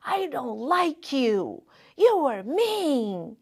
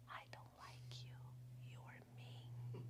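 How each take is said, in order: First: Put-on mildly childish sulky voice, slow and a bit higher; angry little child. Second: Whispered, barely audible. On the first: Girl tells her mom she dislikes her, sulky child voice. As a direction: sulk it out like a seven-year-old. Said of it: "And when you're little". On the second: Retold or imitated. Child repeats it to mom, hushed whisper. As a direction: hide the words from God in a whisper. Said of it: "I whispered".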